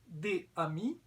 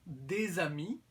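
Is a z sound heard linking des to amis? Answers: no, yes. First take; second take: no; yes. First: The two words are said without a z link. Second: The two words are joined by a z sound.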